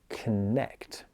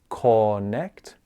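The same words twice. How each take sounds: First: The first syllable is short with a weak vowel. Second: The first syllable has a full, clear vowel. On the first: The speaker calls it right. "we say con connect" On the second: The speaker calls it wrong. "we don't say connect"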